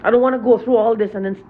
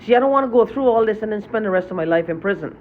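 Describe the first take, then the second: First: Repeats it louder and quicker, heated; angry, faster. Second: Said in the usual way. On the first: Real, not acted. Venting to viewers about his tormentors, angry and quick. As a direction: pushes the words out fast in anger. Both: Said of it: "Sorry I'm so angry".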